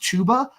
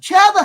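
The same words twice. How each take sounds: First: The name does not rhyme with Hubbard. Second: The name rhymes with Hubbard. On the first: The speaker calls it right. "it is pronounced Chuba" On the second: The speaker calls it wrong. "I'm saying it wrong on purpose because Chuba Hubbard sounds so much better. It rhymes"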